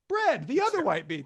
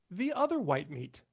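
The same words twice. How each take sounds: First: Laughing repeat. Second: Said in the usual way. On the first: Shown as a demonstration.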